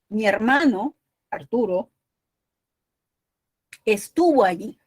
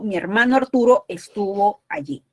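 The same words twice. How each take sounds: First: There is a pause after "Arturo". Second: It runs on without a pause after "Arturo". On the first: Arturo is being spoken to about the brother. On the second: The brother is named Arturo.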